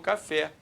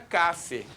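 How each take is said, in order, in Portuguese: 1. A sílaba tônica é a última. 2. A sílaba tônica é a primeira. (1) "e não café" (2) "Se não fosse o fé, eu falaria café"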